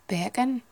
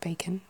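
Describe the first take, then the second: First: It is said in a Newcastle accent. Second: It is said in a Received Pronunciation accent. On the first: "Newcastle, it'd be, like, bacon. Because their C's kind of catch" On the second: "the usual kind of received pronunciation of bacon"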